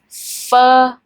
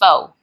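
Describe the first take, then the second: First: The vowel is an unrounded 'uh' sound. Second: The vowel is a rounded 'o' sound. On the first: The speaker calls it right. "make an uh sound, not o" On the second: The speaker calls it wrong. "pronounce this word not correct by saying pho"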